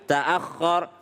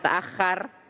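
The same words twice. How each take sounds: First: The kha sound is heavy and thick. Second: The kha sound is light and thin. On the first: The speaker calls it right. "tapi ta'akhkhar" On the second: The speaker calls it wrong. "jangan ta'akhkhar"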